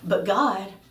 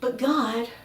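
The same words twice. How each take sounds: First: It sounds like a puzzled question. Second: It sounds like a complaining whine.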